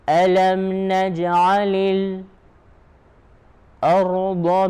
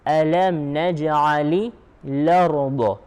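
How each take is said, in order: First: A brief pause comes just before 'ard'. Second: The glottal stop drops and 'la' links forward. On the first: This is the reading of another particular reciter. "he will have a pause called sekt" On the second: This is the reading of one particular reciter. "It's called naql. instead of saying al-ard, he will say l'ard"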